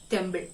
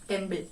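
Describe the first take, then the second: Both takes have the same delivery.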